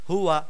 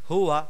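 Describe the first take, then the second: The two takes are said the same way.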